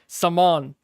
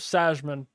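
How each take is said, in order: First: The J sound is left out entirely. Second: The J sound is pronounced in the middle.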